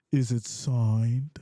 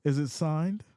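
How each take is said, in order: First: Slow drawn-out question. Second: Said in the usual way. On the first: Shown as a demonstration. Host showing viewers how to ask it, slow drawl. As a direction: stretch out Is it signed slowly and lower. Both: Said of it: "That's how you gotta say it".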